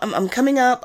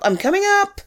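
First: Said in the usual way. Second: High call up the stairs. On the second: Real, not acted. Calling upstairs to a friend, pitched high. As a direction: call it up to the room above.

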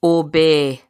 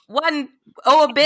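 First: Low, measured one-word order; spoken command. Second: Higher-pitched, insistent order; exasperated command. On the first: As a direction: cast a command spell on a creature. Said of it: "a one-word command". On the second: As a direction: give in and repeat the command emphatically. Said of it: "All right, fine". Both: Acted.

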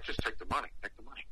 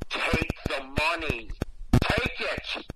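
First: Hushed, low prompt fading away; discreet urging. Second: Insistent. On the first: Boss silently urging him to accept the dollar, discreet hushed prompt. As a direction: urge it softly, under your breath. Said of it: "the boss is looking like". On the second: Angry woman pushing a dollar on him, insistent. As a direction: press it on them word by word. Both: Retold or imitated.

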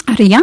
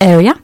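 First: "area" said the wrong way, like "ria"; wrong pronunciation. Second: "area" said carefully and clearly, every sound in place; correct pronunciation. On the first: Retold or imitated. Teacher imitates a typical learner's error, in a mock wrong pronunciation. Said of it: "które niektórzy wymawiają jako". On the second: Shown as a demonstration. Teacher corrects the learners' error, clearly and firmly. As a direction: give the correct model of "area", slightly louder. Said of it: "nie, to jest area".

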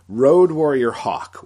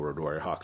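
First: Slow, much louder growled ring-name bellow; Road Warrior Hawk impression. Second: Said in the usual way. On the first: Host trying Road Warrior Hawk's voice, a bad, slow, loud impression. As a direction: bellow the name like a face-painted brawler. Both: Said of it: "that was a terrible Road Warrior Hawk impression".

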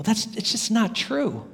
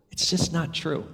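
First: Slow, firm, with weight on "not"; firm denial. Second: A quiet, settled repeat of "It's just not true"; softer echo. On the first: Preacher to the congregation, firmly stressing "not". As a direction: press down on "not" in "it's just not true". Insists the narrative is false. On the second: Preacher repeating the point to the congregation, softly. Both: Real, not acted.

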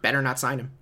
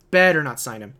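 First: Said in the usual way. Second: "Better" hit hard and loud; emphatic repeat. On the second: Real, not acted. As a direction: punch "Better" as a firm warning.

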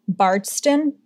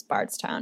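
First: "Bardston" with the t sound and the "town" ending dropped to "ston"; Massachusetts pronunciation. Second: Said in the usual way. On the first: Shown as a demonstration. Host tries "Bardston" as Massachusetts locals might say it. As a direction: say "Bardston" the way someone from Massachusetts would. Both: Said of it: "If we were in Massachusetts, we would say it that way".

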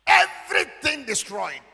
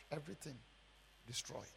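First: High, slow, very loud cry; drawn-out shout of total ruin; anguished preacher's shout. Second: Low, very soft echo of ruin; quiet, broken up by a pause; hushed aftermath. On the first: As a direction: shout both words out to the whole room. Repeats the ruin at full voice. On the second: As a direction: let it sink away, word by word. Repeats the ruin, now hushed. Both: Retold or imitated.

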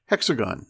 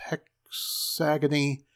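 First: Said in the usual way. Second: HEXAGONY, drawn out slowly with an extra final ee; mispronounced word. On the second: A narrator's reading. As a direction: stumble slowly into "hexagony" with four syllables. Child stumbles on a hard word.

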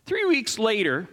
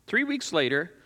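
First: "Three weeks later" drawn out slowly with weight on "Three"; slow emphasis. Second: Said in the usual way. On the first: Shown as a demonstration. Preacher marking a turn in the story, slowed for emphasis. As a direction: lean on "Three" and slow right down.

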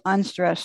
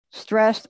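First: Unstressed said light and falling; unstressed syllable. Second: Stressed said with a firm lift; stressed syllable. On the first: Poetry speaker demonstrating an unstressed beat, light. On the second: Poetry speaker demonstrating a stressed beat, firm. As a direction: lean on the word Stressed like a beat. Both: Shown as a demonstration. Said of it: "Stressed, unstressed".

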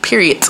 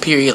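First: "period" with a hard T popped on the end; final T on period. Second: Said in the usual way. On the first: Shown as a demonstration. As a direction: say "period" as "periodt", ending on a crisp T. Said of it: "period with the T on it". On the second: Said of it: "not just period".

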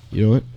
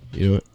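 The two takes are said the same way.

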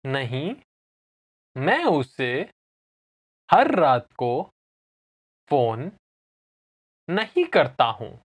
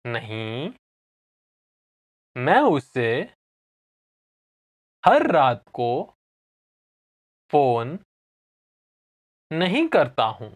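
First: Said in the usual way. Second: Slow teaching pace, long gaps between phrases; slow repeat. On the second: Shown as a demonstration. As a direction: say it slowly, chunk by chunk. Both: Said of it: "I'll say it again slowly".

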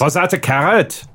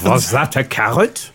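First: Second attempt at a German accent. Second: Put-on German accent slipping into French; German accent gone French. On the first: Shown as a demonstration. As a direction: rehearse the question in a German accent. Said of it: "do a good German accent". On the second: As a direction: botch the German so it sounds French. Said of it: "that's French".

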